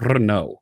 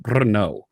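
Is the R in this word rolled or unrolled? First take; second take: rolled; rolled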